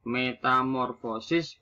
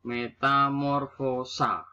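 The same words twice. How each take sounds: First: "Metamorfosis" ending in sis; standard form. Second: "metamorfosa" ending in sa, slowly; nonstandard form. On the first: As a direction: say "Metamorfosis" with final -is. (ucapkan "Metamorfosis" berakhiran sis) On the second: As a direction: draw out "metamorfosa" to its final -a. (ucapkan "metamorfosa" berakhiran sa) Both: Shown as a demonstration.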